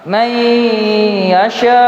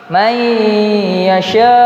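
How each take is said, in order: The two takes are said the same way.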